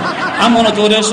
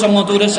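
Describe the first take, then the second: First: Slow, laughing, louder insistence. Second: Said in the usual way. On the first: Retold or imitated. Insists on his plan.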